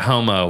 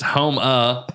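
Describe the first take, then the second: First: The name ends with an 'oh' vowel. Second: The name ends with an 'uh' vowel. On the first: The speaker calls it wrong. "They're not calling Homo" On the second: The speaker calls it right. "It's Homa"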